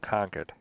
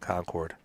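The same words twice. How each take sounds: First: It is said the New England way. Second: It is said the non-New England way.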